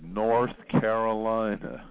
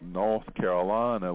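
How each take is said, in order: First: The R sounds after vowels are pronounced. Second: The R sounds after vowels are dropped. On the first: "you and I have a post-vocalic R. We say North Carolina" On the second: "We don't say things like North Carolina"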